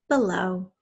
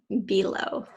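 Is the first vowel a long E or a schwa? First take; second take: schwa; long E. First: The first vowel is a weak schwa. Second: The first vowel is a clear long E. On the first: "We can hear that schwa sound in B and then low" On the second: "Some people do say below"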